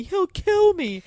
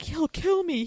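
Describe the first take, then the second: First: Much higher, slow, fearful repeat; mock hysterical panic. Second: Mock panic. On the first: Retelling Tinsley's strange reaction, high mock panic. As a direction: ham up her terror. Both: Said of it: "how Tinsley kept saying".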